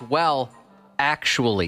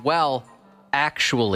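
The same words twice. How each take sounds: First: There is a pause between the two words. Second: There is a pause between the two words.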